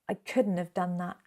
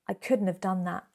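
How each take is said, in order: Both takes have the same delivery.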